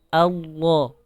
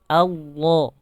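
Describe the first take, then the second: No difference in how they are said.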